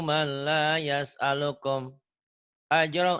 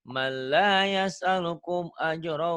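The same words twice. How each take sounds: First: The phrase is broken by a pause partway. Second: The phrase flows on without any pause. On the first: The speaker calls it wrong. "Jadi tadi ke- kebacanya kayak gini" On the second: The speaker calls it right. "gitu ya"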